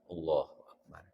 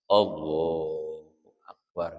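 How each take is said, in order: First: It is said quickly and briefly. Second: It is said slowly and drawn out.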